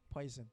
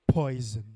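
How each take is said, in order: First: It is said plainly, without menace. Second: It is said in a scary, menacing way.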